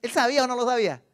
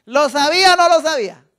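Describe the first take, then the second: First: Said in the usual way. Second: Louder repeated question. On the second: Shown as a demonstration. Preacher to congregation, loud insistent question. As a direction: ask it again, much louder.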